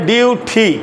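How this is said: The first syllable is said like dew. This is the British pronunciation. "তাহলে এটা হলো British উচ্চারণ।"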